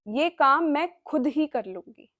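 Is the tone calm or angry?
angry. It is said in an angry tone.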